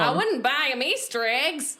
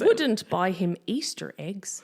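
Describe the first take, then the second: First: It is spoken in an American Southern accent. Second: It is spoken in an English accent.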